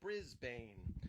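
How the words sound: It is said the American way.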